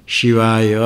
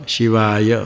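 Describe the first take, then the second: The two takes are said the same way.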